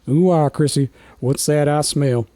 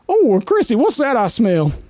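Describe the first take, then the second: First: It is said in a lower, grandfatherly voice. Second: It is said in a higher character voice.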